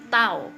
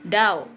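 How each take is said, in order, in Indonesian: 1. Diawali dengan bunyi yang mirip T. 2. Diawali dengan bunyi D bersuara. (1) "tapi tao ya" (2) "Ini bacanya bukan dao"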